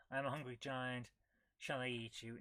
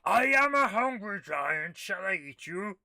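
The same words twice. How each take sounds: First: Lightly voiced giant. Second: Loud, higher, slow hammed-up giant; slow, loud mock giant threatening the player. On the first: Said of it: "Giant voice says". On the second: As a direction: boom it out like a hungry giant. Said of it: "A giant voice says".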